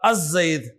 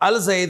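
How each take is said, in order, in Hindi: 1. आर्टिकल की l ध्वनि z में मिल जाती है। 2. आर्टिकल की l ध्वनि साफ़ बोली जाती है। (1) "उसको उन्होंने अलिफ लाम लगाया और बोला अज़ जईद" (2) "अल जईद नहीं बोला"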